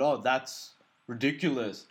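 It is said in a mock Indian accent.

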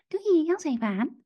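It is said in a mocking, put-on little voice. A child mimics the request to tease. "En dan met zo'n stemmetje"

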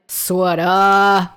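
It is said in a Boston accent.

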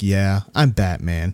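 It is said in a cocky, boastful way.

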